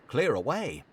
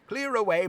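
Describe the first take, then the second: First: Said in the usual way. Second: "Clear away" much higher, louder, merry; "Clear away" hailed by a jolly master; jovial order. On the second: Acted. Fezziwig's shouted order.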